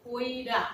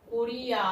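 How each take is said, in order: First: কইরা with the i moved before র; spoken dialect form কইরা; East Bengal form. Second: করিয়া said in full with the i after র; careful standard করিয়া; standard form. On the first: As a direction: say কইরা as koi-ra. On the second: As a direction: say করিয়া as kor-i-ya. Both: Shown as a demonstration. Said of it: "প্রথমে দেখো অপিনিহিতি".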